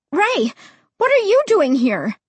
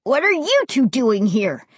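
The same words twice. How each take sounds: First: High, startled exclamation. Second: Mildly startled exclamation; startled cry. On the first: Narrator as child finding Ray behind them, startled. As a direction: blurt it out high in surprise. Startled by pursuer on dark street. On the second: Ray to the two kids caught in the light, mildly startled. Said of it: "he cried, sounding almost as startled as I did". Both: A narrator's reading.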